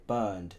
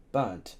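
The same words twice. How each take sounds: First: Burned with a clear -ned ending; father quoting the word burned; wrong word. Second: Burnt with a crisp final t; father teaching the word burnt; correct word. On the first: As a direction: say burned, the form he corrects. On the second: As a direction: say burnt, sharp t at the end. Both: Acted. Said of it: "The word is burnt".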